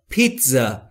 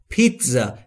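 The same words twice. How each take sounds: Both takes have the same delivery.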